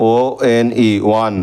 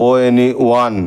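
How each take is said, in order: First: ওয়ান said very slowly with a clear ওয়া sound at the start; slow pronunciation demo. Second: Said in the usual way. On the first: Shown as a demonstration. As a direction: stretch out ওয়ান so the ওয়া onset is heard. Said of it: "ওয়ার মতো হচ্ছে". (ওয়ান খুব ধীরে, শুরুতে স্পষ্ট ওয়া ধ্বনি দিয়ে) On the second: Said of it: "ও এর উচ্চারণটা ওয়ার মতো হচ্ছে".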